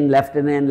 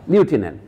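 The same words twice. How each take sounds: First: লেফটেন্যান্ট said with an f sound, lef-tenant; common f pronunciation. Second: লিউটেন্যান্ট said lyoo-tenant with no f; French-style pronunciation. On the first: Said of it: "ইউটাকে এফ করে উচ্চারণ করি আমরা". (লেফটেন্যান্ট 'এফ' ধ্বনি দিয়ে, লেফ-টেন্যান্ট উচ্চারণ) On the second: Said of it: "এটা ফরাসিতে লেখা আছে, উচ্চারণে". (লিউটেন্যান্ট ফরাসি ধাঁচে, এফ ছাড়া লিউ-টেন্যান্ট উচ্চারণ) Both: Shown as a demonstration.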